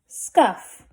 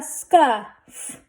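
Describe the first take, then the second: First: Said in the usual way. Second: Scuff drawn out, f set apart; blended slowly. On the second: Shown as a demonstration. Teacher sounding out a word for readers, blended slowly. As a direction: stretch scuff, adding the f last. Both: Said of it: "Let's read this".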